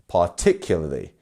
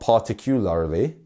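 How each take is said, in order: First: The stress falls on the second syllable. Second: The stress does not fall on the second syllable. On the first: The speaker calls it right. "our second syllable here is our stressed one" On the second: The speaker calls it wrong. "not particularly"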